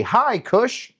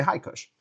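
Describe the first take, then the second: First: High, bright call of hi cush; cheery group greeting. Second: Said in the usual way. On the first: Shown as a demonstration. Host shows the crowd how to greet him, calling out. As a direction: lead the crowd in a big hello. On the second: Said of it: "Get everybody to say".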